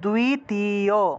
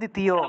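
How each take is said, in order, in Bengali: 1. শব্দটি সংস্কৃত ধরনে উচ্চারণ করা হয়েছে। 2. শব্দটি বাংলা ধরনে উচ্চারণ করা হয়েছে। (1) "সংস্কৃত উচ্চারণ করলে দ্বিতীয়" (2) "বাংলায় বললে দ্বিতীয়"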